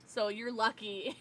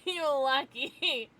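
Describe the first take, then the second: First: Said in the usual way. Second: "You're lucky" said slowly through a laugh; laughing repeat. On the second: Shown as a demonstration.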